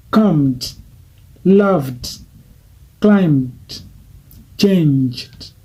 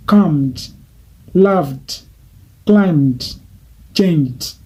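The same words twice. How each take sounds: The two takes are said the same way.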